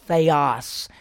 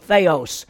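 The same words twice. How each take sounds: First: The second vowel is not an O sound. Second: The second vowel sounds like an O. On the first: The speaker calls it right. "that omicron, the little O there, is an I sound. It's theos" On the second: The speaker calls it wrong. "When most people look at that word, they go theos"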